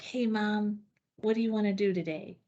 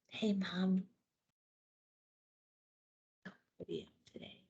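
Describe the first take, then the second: First: It is said fast. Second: It is said slowly.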